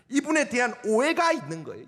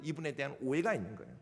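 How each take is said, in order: First: Said in the usual way. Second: "오해가" said again much softer and lower; softer repeat. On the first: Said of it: "repeated for emphasis". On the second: Shown as a demonstration. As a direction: drop the repeat to a murmur. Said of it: "repeated softly". (반복할 때 훨씬 작고 낮게)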